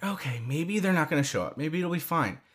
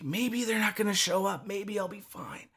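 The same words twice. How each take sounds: First: Softer, quicker thinking aloud; retold hushed hopeful thought; hopeful self-reassurance. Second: Hushed, higher hopeful thought; whisper-soft self-reassurance, acted out; retold tentative hope. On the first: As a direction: quietly reassure yourself, as retold. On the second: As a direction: think aloud very softly, hoping. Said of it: "starting to get hope".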